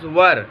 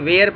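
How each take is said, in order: First: The vowel sounds like the one in fur. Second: The vowel sounds like the one in hair. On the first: The speaker calls it right. "Always pronounce it as वर" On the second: The speaker calls it wrong. "बहुत सारे लोग इसे वेयर पढ़ते हैं जो कि गलत है"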